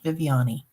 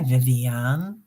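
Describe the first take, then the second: First: The name ends with a long E sound. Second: The name ends without a long E sound. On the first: The speaker calls it right. "a s- long E at the end" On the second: The speaker calls it wrong. "I always say that wrong"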